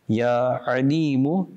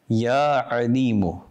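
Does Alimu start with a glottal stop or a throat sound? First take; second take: throat sound; throat sound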